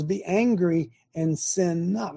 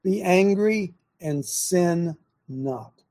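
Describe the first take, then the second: First: Plain. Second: Angry and sin not drawn out very slowly, each word weighed; slow, deliberate. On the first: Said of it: "The Bible says". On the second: Preacher unpacking the verse for his audience, very slow. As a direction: lay the verse out slowly for the listeners to think over. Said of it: "What would that mean?". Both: Shown as a demonstration.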